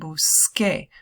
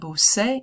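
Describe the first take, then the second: First: The last syllable begins with a k sound. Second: The last syllable begins with an s sound. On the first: The speaker calls it right. "you want busqué" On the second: The speaker calls it wrong. "Any C E C I is going to have that S sound. So you don't want busé"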